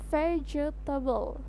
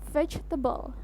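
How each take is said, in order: First: The word is said with more syllables. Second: The word is said with fewer syllables. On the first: The speaker calls it wrong. "Jadi kita menyebutkannya ada tiga suku kata" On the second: The speaker calls it right. "Yang benar adalah diucapkan dengan dua suku kata saja"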